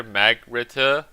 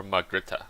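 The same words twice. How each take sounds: First: Loud, slow "Magrita" with the short "a" of mag; alternative pronunciation. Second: "Magrita" with an open "ah", mahg-RIT-uh; other pronunciation. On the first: Player sounding out a garrison's name, alternative pronunciation. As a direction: stretch "Magrita" out as mag-RIT-uh, punched louder. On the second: Player settling between two readings of a name, other pronunciation. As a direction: say "Magrita" as mahg-RIT-uh, first vowel as in father. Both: Shown as a demonstration. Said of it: "Is it Margrita or Magrita?".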